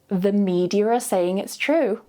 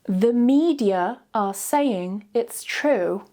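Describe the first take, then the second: First: It is said naturally, sounds joined smoothly. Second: It is said very slowly, word by word. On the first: "then naturally joining the sounds together smoothly with the intrusive R" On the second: "Say each sentence very slowly first"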